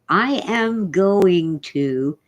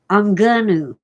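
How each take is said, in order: First: Every word is said fully and separately. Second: It is contracted and reduced to 'I'm gonna'. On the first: The speaker calls it right. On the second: The speaker calls it wrong.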